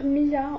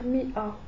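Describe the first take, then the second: First: The vowels are linked with a smooth y glide. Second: The vowels are separated by a glottal break. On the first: The speaker calls it wrong. "On va pas dire miya" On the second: The speaker calls it right. "on va dire mi'a"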